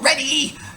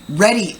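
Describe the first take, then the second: First: The word is said with high, lively energy. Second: The word is said in a neutral, even voice. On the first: "If you want it higher energy" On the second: "It's kind of a neutral one"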